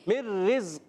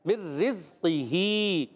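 First: The word ends with a silent h. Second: The word ends with a full final vowel. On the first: The reading stops at this word. "جب وف کریں گے کھڑی زیر کو ہا وف کی صورت میں ہا ساکن سے بدلیں گے" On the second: The reading continues without stopping. "اب یہاں جو ہے مر رزق ہی نہیں پڑھیں گے"

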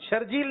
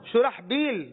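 First: The middle has a 'j' sound: Shurjeel. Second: The middle has an 'h' sound: Shurahbeel. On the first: The speaker calls it wrong. "شرجیل جو ہے یہ غلط ہے" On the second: The speaker calls it right. "درست جواب دیا"

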